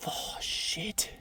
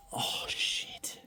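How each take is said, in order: First: A second breathy, near-voiceless whispered curse; hushed whisper. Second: Breathless whispered curse, no voice at all; hushed whisper. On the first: Prospector still whispering to himself over the gold. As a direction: keep it hushed as the shock lands. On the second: Prospector whispering over a find so the neighbour won't hear. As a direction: whisper it so the nearby camper can't hear. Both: Real, not acted. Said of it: "I'm being really quiet".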